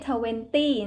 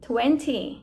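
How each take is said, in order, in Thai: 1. พยางค์สุดท้ายขึ้นต้นด้วย t แบบไม่พ่นลม 2. พยางค์สุดท้ายขึ้นต้นด้วย t แบบพ่นลม (1) "ไม่ใช่" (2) "ไม่ได้อ่านว่าตี้นะคะอ่านว่าที"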